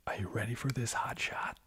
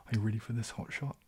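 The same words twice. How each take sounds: First: Put-on American accent. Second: Line read in a Kiwi accent. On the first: Streamer quoting their American film character to viewers, American accent. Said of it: "my character is so American". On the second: Shown as a demonstration. Streamer showing how horrible the line sounds, Kiwi accent. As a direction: say it with New Zealand vowels, Kiwi accent. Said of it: "say that in my Kiwi accent".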